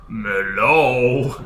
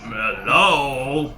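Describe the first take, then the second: First: Tiny tinkling fairy voice; sing-song little fairy call. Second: Tiny fairy call, rising; lilting little fairy hello. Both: Pretend. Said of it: "Maybe I'll try my fairy's voice".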